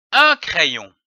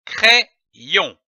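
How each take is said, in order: First: "Un crayon" said smoothly without a break; "Un crayon" as one connected word; whole word joined. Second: "crayon" split in two, pause after the first syllable; "crayon" in detached reading-lesson syllables. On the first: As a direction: blend the two halves of "crayon" together. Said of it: "donne le mot". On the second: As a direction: sound out "crayon" as cré, then yon. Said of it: "L'association de ces deux syllabes donne le mot". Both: Shown as a demonstration.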